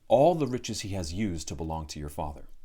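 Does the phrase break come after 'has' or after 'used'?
after used. 'Has used' is grouped together, without a break after 'has'. The giant has used the riches. The speaker calls it wrong. "V reads, ... which doesn't actually make sense"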